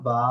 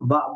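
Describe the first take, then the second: First: The vowel is drawn out long. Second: The vowel is cut short and released. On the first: The speaker calls it right. "আমি টানলাম বা" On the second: The speaker calls it wrong. "বা বলে ছেড়ে দিইনি"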